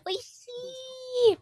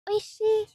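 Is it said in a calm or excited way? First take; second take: excited; calm. First: It is said in an excited, energetic way. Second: It is said in a calm, relaxed way.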